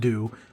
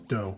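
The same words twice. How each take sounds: First: It does not sound like Nintendo's ending. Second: It sounds like Nintendo's ending. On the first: The speaker calls it right. "it is pronounced do" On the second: The speaker calls it wrong. "People are trying to correct me that it's do. No, it's not like Nintendo"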